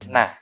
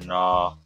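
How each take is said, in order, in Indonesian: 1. Vokalnya terbuka seperti a. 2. Vokalnya dibulatkan seperti o. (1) "Tapi na, na, na" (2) "Bukan no, no, no, bukan"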